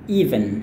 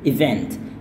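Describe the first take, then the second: First: The word sounds like 'even', with no final t. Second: The word sounds like 'event', with a final t. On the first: The speaker calls it wrong. "mereka sering salahkannya dengan even" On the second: The speaker calls it right. "Padahal yang tepatnya adalah event"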